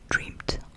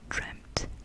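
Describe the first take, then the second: First: The word ends with a D sound. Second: The word ends with a T sound. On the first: The speaker calls it wrong. "on ne va pas dire dreamed" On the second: The speaker calls it right. "On rajoute effectivement le T ... on dit dreamt"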